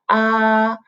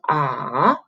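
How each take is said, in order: First: The pitch stays high and level. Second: The pitch dips down and then rises. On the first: "the first tone is like ah" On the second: "The third tone ah, you go down, up"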